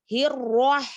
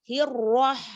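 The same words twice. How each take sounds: No difference in how they are said.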